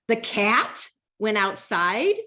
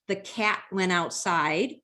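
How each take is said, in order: First: It is said with upset, strong emphasis. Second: It is said as a calm, neutral statement. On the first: The speaker is bothered that it happened. "the second time I was pretty upset" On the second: It is just a plain report of a fact. "the first time it sounded like a statement"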